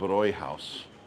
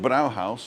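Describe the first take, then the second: First: The first vowel is an umlauted äu sound. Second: The first vowel is a plain au sound. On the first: The speaker calls it right. "because there's dots over the A, you pronounce it Bräuhaus" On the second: The speaker calls it wrong. "It would be the Brauhaus if there wasn't any uh, dots over the A"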